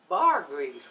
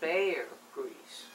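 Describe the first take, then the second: First: The first word has the vowel of car. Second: The first word has the vowel of care. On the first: The speaker calls it wrong. "he was pronouncing it bar" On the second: The speaker calls it right. "I found out it was bear grease"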